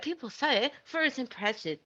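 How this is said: It is spoken with a British accent. "when I read this in British"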